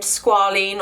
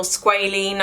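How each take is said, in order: First: Squalene said SKWAH-leen; first pronunciation. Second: Squalene said SKWAY-leen; alternative pronunciation. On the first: Unsure vlogger offering one way to pronounce it, squalene as SKWAH-leen. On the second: Unsure vlogger offering the other way to pronounce it, squalene as SKWAY-leen. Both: Shown as a demonstration. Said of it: "I don't know how you pronounce it".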